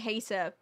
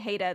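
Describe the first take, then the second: First: It has a crisp t, not an American accent. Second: It has an American flapped t, rhyming with Ada. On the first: "I would say hater" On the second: "If I had more of an American accent, your name would rhyme with that"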